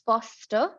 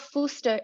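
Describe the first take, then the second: First: The first vowel is an 'aw' sound. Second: The first vowel is not an 'aw' sound. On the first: The speaker calls it right. "with an aw sound" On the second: The speaker calls it wrong. "it's not Fooster"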